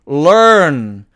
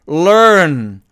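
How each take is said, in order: Both takes have the same delivery.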